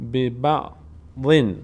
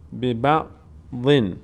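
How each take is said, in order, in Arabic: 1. تنتهي الكلمة بصوت -un. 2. تنتهي الكلمة بصوت -un.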